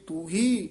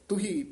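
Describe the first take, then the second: First: The first vowel is long. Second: The first vowel is short. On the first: "ਪਹਿਲਾ ਤੂ ਹੀ ਉਚਾਰਨ ਕਰਨਾ" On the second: "ਦੂਜਾ ਤੁਹੀ ਉਚਾਰਨ ਕਰਨਾ"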